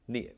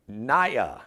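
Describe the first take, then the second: First: The name is said like the actress's name Nia. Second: The name is said unlike the actress's name Nia. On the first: The speaker calls it right. "like Nia Long" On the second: The speaker calls it wrong. "I want to make sure I'm pronouncing her name right"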